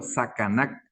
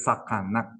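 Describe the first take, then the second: First: "sacanac" with plain front k sounds; first contrasted pronunciation. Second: "sacanac" with glottal Q sounds for the c; second contrasted pronunciation. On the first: Teacher repeats so the difference is seen, plain-C "sacanac". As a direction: model "sacanac" with an ordinary C. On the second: Teacher repeats so the difference is seen, throaty-Q "sacanac". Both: Shown as a demonstration. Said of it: "¿Se ve la diferencia?".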